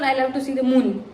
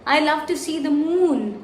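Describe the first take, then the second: First: The vowel in moon is short. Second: The vowel in moon is stretched long. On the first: The speaker calls it wrong. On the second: The speaker calls it right.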